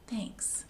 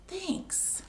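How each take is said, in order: First: Soft whispered thanks; a gentle shared ending. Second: High, soft, timid thanks; a shy little bear thanking; small bear thanks. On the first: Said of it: "they all say". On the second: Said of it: "And Bear says". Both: Acted.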